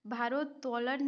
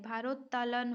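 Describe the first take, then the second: First: भारोत्तोलन with "to" before the lan; an o vowel in the middle of भारोत्तोलन; wrong form. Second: भारोत्तोलन with "ta" before the lan; a short a in the middle of भारोत्तोलन; corrected form. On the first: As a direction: say bhaarot-tolan for भारोत्तोलन. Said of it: "भारोत्तोलन नहीं होता है". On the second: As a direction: say bhaarot-talan for भारोत्तोलन. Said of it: "भारोत्तोलन होता है". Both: Shown as a demonstration.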